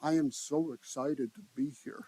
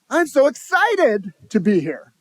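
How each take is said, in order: First: Flat, unexcited. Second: Higher, louder and slow, full of real excitement; genuinely excited. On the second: Speaker demonstrating tone to the audience, genuinely excited. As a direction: sell the excitement with your whole voice. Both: Shown as a demonstration. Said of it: "thirty-eight percent is the tonality of your voice".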